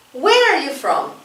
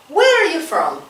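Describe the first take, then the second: No difference in how they are said.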